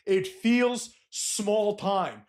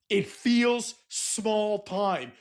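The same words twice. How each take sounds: First: It feels small time stretched very slow, landing on feels; drawn-out emphasis. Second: It feels small time with every word stretched very slow; drawn-out emphasis. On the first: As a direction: say it slowly and let it sink in. Repeats the point, same slow emphasis. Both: Shown as a demonstration.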